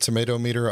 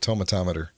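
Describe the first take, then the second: First: It is said as two separate words. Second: It is said as one blended word. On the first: "do they pronounce it tomato meter?" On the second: "I've always called it the tomatometer"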